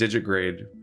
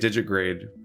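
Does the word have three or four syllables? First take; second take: Three; Three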